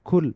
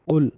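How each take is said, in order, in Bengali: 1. এটি একটি সাধারণ k শব্দ দিয়ে শুরু হয়। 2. এটি গলা থেকে আসা একটি গভীর শব্দ দিয়ে শুরু হয়। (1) "যদি আমরা কাফের উচ্চারণ করি এবং আমরা যদি বলি কুল" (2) "এখানে কাফ দিয়ে উচ্চারণটা শুরু"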